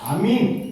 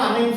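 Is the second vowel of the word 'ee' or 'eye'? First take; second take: ee; eye. First: The second vowel sounds like 'ee'. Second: The second vowel sounds like 'eye'. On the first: "அமீன் அல்லது அமைன் சொல்லலாம்" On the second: "அமீன் அல்லது அமைன் சொல்லலாம்"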